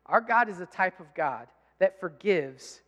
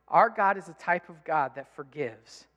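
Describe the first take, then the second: First: Slow, every word weighted; solemn, deliberate proclamation; slow emphatic declaration. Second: Said in the usual way. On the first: Shown as a demonstration. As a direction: lean hard on each word of forgives. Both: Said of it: "make sure that you hear this".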